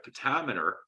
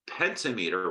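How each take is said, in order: First: "Pentameter" stressed on TAM, pen-TAM-uh-ter; standard pronunciation. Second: "pentameter" as penta plus meter, with a long "mee"; split into penta-meter. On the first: Lecturer giving the way we pronounce it, "Pentameter" as pen-TAM-uh-ter. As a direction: run "Pentameter" together with a short, stressed "tam". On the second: Lecturer breaking the term into its parts, "pentameter" said as penta-MEE-ter. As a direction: say "pentameter" like two words, PEN-ta-MEE-ter. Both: Shown as a demonstration. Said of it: "the way we pronounce it".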